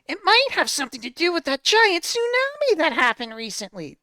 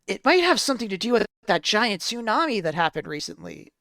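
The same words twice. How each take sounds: First: It is said in a put-on Tails voice. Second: It is said in the reader's normal voice.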